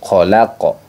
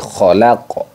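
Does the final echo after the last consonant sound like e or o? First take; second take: o; o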